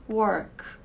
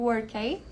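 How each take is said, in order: First: The k is cut short with no vowel. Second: The k is followed by an added vowel. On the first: The speaker calls it right. "Eu digo work" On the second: The speaker calls it wrong. "eu não digo workei, como seria a pronúncia do K lá no alfabeto"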